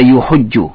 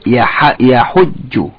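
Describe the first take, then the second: First: The first syllable has the vowel u. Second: The first syllable has the vowel a. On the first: The speaker calls it wrong. "Laysa yuhujju" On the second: The speaker calls it right. "Harfu ya hadha maftuha wa laysat madhumma"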